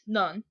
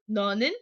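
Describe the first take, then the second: First: It is said as one shortened syllable. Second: It is said as two full syllables. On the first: "shorter in Korean, it's 넌. It's just easier to say" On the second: "instead of being 너는"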